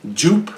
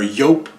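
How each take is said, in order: First: Joop with a hard English J; J pronunciation. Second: Joop said with a Y sound, like "yope"; alternative pronunciation. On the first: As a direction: say Joop starting with a J, like "jeep". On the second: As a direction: start Joop with Y instead of J. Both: Shown as a demonstration. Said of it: "however you wanna pronounce it".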